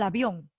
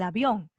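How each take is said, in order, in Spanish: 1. El acento está en la primera sílaba. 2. El acento está en la última sílaba.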